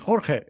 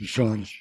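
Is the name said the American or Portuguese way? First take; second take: American; Portuguese. First: The name is said with an American pronunciation. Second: The name is said with a Portuguese pronunciation. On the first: "usually Americans tend to, which is natural, I think, to call me Jorge" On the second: "Portuguese pronunciation is Jorge"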